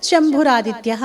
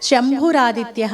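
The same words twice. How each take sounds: Both takes have the same delivery.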